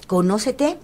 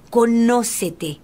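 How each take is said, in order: First: Said in the usual way. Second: "Conócete" stretched syllable by syllable with a firm fall; slow solemn maxim. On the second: Shown as a demonstration. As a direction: say "Conócete" slowly, like a weighty maxim. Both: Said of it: "dice la sabiduría griega".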